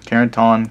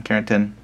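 First: Carrington ending in an open "-tahn"; trying a pronunciation. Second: Carrington with a reduced ending, "-tun"; trying a pronunciation. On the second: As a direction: say Carrington as "CARE-en-tun", softer. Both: Shown as a demonstration. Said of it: "put a little pronunciation guide".

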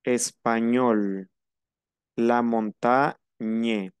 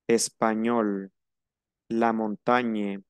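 First: Español, montaña drawn out slowly; slow, stretched ñ sound; French gn. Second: Español, montaña slow with ñ; stretched ñ in each word; French gn. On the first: Teacher drills the gn sound slowly. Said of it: "Esto se vuelve ñe". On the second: Teacher repeats the gn drill. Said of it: "El sonido tiene que ser ñe". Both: Shown as a demonstration.

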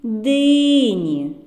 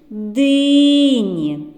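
First: Said in the usual way. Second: "дині" called long and loud on "ДИ"; calling out, stress on first syllable. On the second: Shown as a demonstration. Teacher calls out "дині" to show the stress. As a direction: call the melons from afar, leaning on "ди". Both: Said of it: "нібито покличемо дині".

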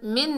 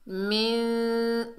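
First: मिन short, with a clear n; wrong pronunciation demo. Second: मिन very slow, n melted into a long nasal hum; ikhfa demo. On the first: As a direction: cut मिन off without any held hum. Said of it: "नहीं पढ़ना". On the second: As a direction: hold मिन as a hidden, humming n. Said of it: "इक्फा करेंगे". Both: Shown as a demonstration.

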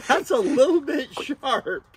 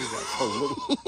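First: High laughing words, louder. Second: Said in the usual way. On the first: Real, not acted. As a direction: laugh through it, surprised. Pricked by the sharp blade.

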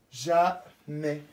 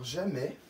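First: Jamais said slowly and clearly, S silent; careful dictation word. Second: Said in the usual way. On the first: Shown as a demonstration. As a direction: spell out Jamais for the class. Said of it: "avec le S qui ne se prononce pas". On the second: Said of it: "s'écrit avec un J".

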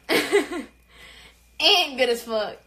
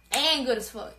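First: Each word stretched very slow; slow, proud drawl through a laugh; drawn-out boast. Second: Said in the usual way. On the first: Shown as a demonstration. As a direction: savour it, dragging every word.

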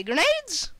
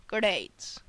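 First: GRENADES pitched high, as an unsure question. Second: GRENADES low and falling, as a statement; settled answer. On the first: Gamer guessing what the weapons are, GRENADES as a high question. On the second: Gamer confirming his own guess, GRENADES as a low statement. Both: Real, not acted.

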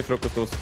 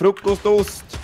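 First: Said in the usual way. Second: High, slow stretched FRUKOSTOST; drawn-out echo. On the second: Pretend. Echoing a teammate's silly word, high and drawn out. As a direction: draw out FRUKOSTOST slowly in a high voice.

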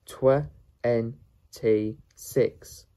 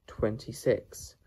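First: "twenty-six" very slow, loud, in separate pieces; syllable by syllable. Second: Said in the usual way. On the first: Shown as a demonstration. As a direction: sound out "twenty-six" firmly with long gaps. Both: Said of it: "How to pronounce".

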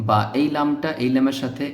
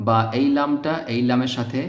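The two takes are said the same way.

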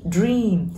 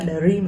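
First: Said in the usual way. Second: "dream" with an extra vowel after the d; wrong pronunciation demo. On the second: Shown as a demonstration. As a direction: break "dream" into "duh-reem" as a mistake. (đọc sai "dream" thành "đờ-rim") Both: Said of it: "Đừng đọc là dream mọi người nha".

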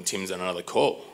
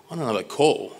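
First: Said in the usual way. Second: "On another call?" higher, with a questioning rise on "call"; incredulous echo. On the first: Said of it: "then Lee tells me that". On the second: Retold or imitated. Customer told Tim is on another call, "On another call?" in rising disbelief. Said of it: "And I'm like".

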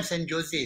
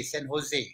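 First: "Jose" with an English J, "Joe-say"; wrong pronunciation. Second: "Jose" with an H, "ho-ZAY"; lower, quieter "Jose" with a breathed H for the J; corrected pronunciation. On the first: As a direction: say "Jose" with a hard J sound. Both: Shown as a demonstration. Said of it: "bukan San Jose".

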